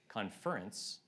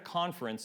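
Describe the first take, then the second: First: The stress is on the second syllable. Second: The stress is on the first syllable. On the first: People are conferring with each other. "if we put the emphasis on a different syllable" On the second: A meeting event that people attend. "So we're at a conference"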